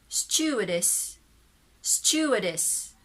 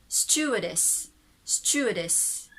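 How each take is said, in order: No difference in how they are said.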